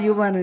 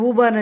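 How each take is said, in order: First: The word begins with a 'yoo' sound. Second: The word begins with a plain 'oo' vowel. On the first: This is how the adults say it. "మేమేమో దాన్ని యూ అని పలుకుతాం" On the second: This is how the child says it. "వాడే కరెక్ట్గా పలుకుతున్నాడు"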